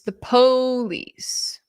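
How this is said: It is said with a mocking dialect pronunciation.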